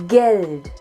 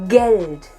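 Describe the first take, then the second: The two takes are said the same way.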